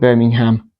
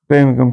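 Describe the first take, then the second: First: It is said with an American pronunciation. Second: It is said with a British pronunciation. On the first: "you live in America, um, you call it Birmingham" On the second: "here in the U K"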